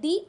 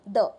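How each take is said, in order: First: The word ends in a long 'ee' vowel. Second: The word ends in a short 'uh' vowel. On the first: This is the special form used in poems. "चाहे poem में है दी" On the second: This is the ordinary form used in prose. "आपको सिर्फ इतना करना है द"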